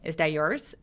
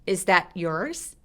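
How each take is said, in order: First: The t is dropped and it is said fast. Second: The t is held and cut off, separate. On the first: "굉장히 빨리 발음했을 때" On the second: "이 t만 특별하게 소리를 끊어버리고 따로따로 발음할 때"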